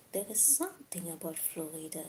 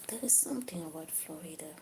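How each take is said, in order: Both takes have the same delivery.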